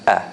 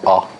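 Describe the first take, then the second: First: The vowel is light and soft. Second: The vowel is heavy and strong. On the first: The speaker calls it right. "the hamza is always soft. So it should be a" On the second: The speaker calls it wrong. "not ah ... we tend to make it heavy"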